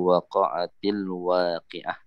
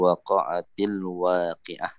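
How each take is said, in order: First: The t carries an i vowel, linking words. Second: The same.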